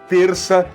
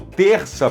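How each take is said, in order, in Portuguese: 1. O R é um tepe feito com a língua. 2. O R é feito no fundo da garganta. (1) "o R vibrante" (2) "esse R feito no fundo da garganta"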